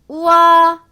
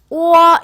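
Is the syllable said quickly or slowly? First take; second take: slowly; quickly. First: It is said slowly as two separate vowels. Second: It is said quickly, blending into one syllable.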